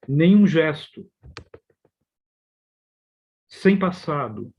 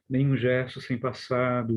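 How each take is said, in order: First: There are pauses after 'gesto' and 'rosto'. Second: There are no pauses after 'gesto' or 'rosto'.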